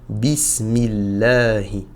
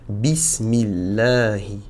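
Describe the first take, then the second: The two takes are said the same way.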